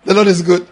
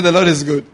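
First: Louder declaration. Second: Repeated declaration. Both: Shown as a demonstration. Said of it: "I said".

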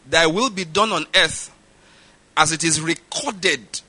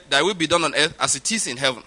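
First: "recorded" slowly drawn out, syllable by syllable; slow emphasis landing on "recorded"; stress on "recorded". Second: Said in the usual way. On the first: Shown as a demonstration. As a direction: lean on "recorded" with slow, deliberate weight. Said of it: "I keep on emphasizing that word". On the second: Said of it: "we don't see it like that".

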